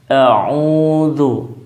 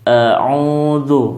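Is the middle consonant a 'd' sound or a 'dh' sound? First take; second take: dh; dh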